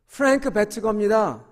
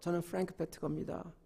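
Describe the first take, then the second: First: The name is said in a louder voice. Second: The name is said in a small, quiet voice. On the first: The man was told to speak up. "좀 더 크게" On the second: The man is ashamed to introduce himself. "조그만 소리로"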